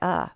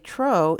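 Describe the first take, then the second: First: The syllable has a weak, reduced uh vowel. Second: The syllable has a full, stressed long vowel. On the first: The speaker calls it right. "That syllable's vowel is turned off. It sounds like uh" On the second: The speaker calls it wrong. "it's going to create more stress on that syllable"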